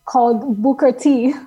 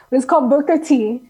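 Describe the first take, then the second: First: Booker T. said with a light Spanish accent. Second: Said in the usual way. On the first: Real, not acted. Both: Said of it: "Why am I saying that with a Spanish accent?".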